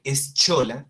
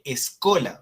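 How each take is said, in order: First: Eschola said "es-CHO-la"; wrong reading. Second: Escola said "es-KO-la"; correct Latin reading. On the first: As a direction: read eschola with a Spanish ch. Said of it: "En lugar de leer eschola". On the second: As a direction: say escola with a hard k. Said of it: "se lee escola". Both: Shown as a demonstration.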